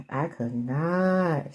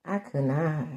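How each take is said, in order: First: "I could not" stretched very slowly; drawn-out emphasis. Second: Said in the usual way. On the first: Real, not acted. Repeats same words, drawn out.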